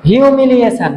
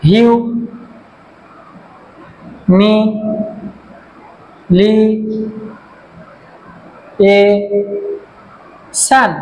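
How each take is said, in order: First: Said in the usual way. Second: "humiliation" broken into syllables with very long pauses. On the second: Shown as a demonstration. Teacher showing five syllables, "humiliation" split syllable by syllable. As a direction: say "humiliation" extremely slowly, each syllable standing alone. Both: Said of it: "syllable আছে".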